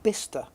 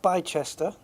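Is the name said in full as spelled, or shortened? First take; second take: shortened; as spelled. First: The name is said in its shortened form. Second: The name is said in full as spelled. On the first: The speaker calls it right. "apparently it's pronounced Bicester" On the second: The speaker calls it wrong. "not Bicester"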